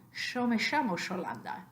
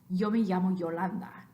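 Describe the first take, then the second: First: It has an Argentine sh sound. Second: It has a Mexican y sound.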